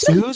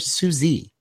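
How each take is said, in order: First: The name is said as one syllable. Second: The name is said as two syllables. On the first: This is how the person herself says it. The speaker calls it right. "It's actually Suze. That's how she pronounces it" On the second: This is a common but mistaken way to say it. The speaker calls it wrong. "I've always said Susie"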